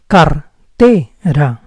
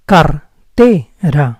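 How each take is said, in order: First: The R is rolled. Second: The same.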